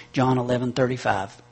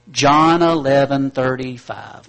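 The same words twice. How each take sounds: First: Said in the usual way. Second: "John eleven thirty-five" spoken slowly and loudly, word by word; slow, loud recital. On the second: Shown as a demonstration. Preacher drilling the congregation on the address, slow and loud. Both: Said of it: "memorize the address for me".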